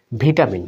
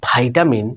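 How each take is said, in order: First: "ভিটামিন" with short vi at the start; British pronunciation. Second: "ভাইটামিন" with vai at the start; American pronunciation. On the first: Teacher recalls the vitamin learners grew up with, said vi-ta-min. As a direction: begin "ভিটামিন" as vi, not vai. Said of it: "ব্রিটিশটাই কিন্তু শিখে". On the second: Teacher shows the surprising American vitamin, said vai-ta-min. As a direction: open "ভাইটামিন" on a long eye vowel. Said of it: "কেউ যদি বলে". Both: Shown as a demonstration.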